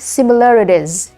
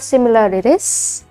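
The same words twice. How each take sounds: First: The word ends with a z sound. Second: The word ends with an s sound. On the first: The speaker calls it right. "it should be similarities" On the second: The speaker calls it wrong. "instead of similarities"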